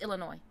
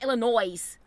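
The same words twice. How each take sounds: First: The word ends with no s sound. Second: The word ends with an audible s sound. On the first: The speaker calls it right. "It's Illinois" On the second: The speaker calls it wrong.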